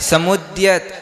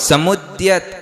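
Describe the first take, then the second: No difference in how they are said.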